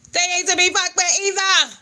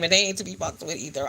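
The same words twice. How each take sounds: First: High and loud, hitting "fucked" hard; warning the viewers with full emphasis; emphatic repeat. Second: Said in the usual way. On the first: Real, not acted. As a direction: punch "They ain't to be fucked with either" up high and loud as a warning.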